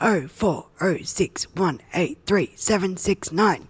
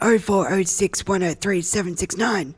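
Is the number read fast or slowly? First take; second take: slowly; fast. First: The number is read slowly. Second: The number is read quickly.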